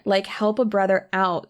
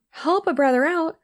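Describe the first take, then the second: First: Said in the usual way. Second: High, mocking echo of her words; incredulous echo. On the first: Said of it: "I wish I could tag that person". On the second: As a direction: throw her phrase back in disbelief.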